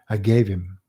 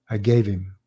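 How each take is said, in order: No difference in how they are said.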